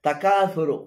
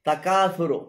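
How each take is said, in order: Both takes have the same delivery.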